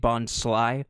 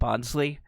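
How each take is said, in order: First: The last syllable sounds like 'sly'. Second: The last syllable sounds like 'lee'. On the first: It is the intended name, like bonsai but sly. "I understand it's supposed to be Bondsly" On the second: It sounds cuter and more like a person's name. "I can't not call it Bondsley because it's just it's cuter"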